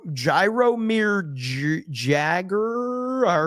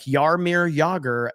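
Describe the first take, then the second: First: The name is sounded out naively by someone unfamiliar. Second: The name is said the way sports fans say it. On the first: Someone who doesn't know the name is guessing. The speaker calls it wrong. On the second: The speaker knows the name from following sports. The speaker calls it right.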